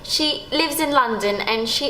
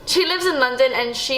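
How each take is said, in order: First: It is spoken in an imitated British accent. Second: It is spoken in the speaker's normal accent.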